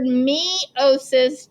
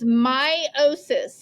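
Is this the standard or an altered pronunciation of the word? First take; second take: altered; standard. First: The word has an altered, distinctive pronunciation. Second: The word has its standard pronunciation. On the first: "I will most of the time pronounce this word meiosis" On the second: "the correct pronunciation of this word is meiosis"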